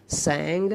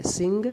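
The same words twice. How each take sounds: First: सैंग said with an open a sound; सैंग, the second form, clearly; verb form drill. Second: सिंग said with a short i and a rising tune; सिंग, first form, clearly voiced; verb form drill. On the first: (सैंग को खुले 'ऐ' से बोलना) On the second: (सिंग को ऊँचे सुर में बोलना) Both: Shown as a demonstration. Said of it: "सैंग और संग".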